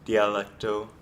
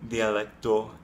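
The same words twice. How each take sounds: First: The d and t are made on the ridge. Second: The d and t are made on the teeth. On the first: The speaker calls it wrong. "instead of dialecto" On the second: The speaker calls it right. "dialecto instead of dialecto"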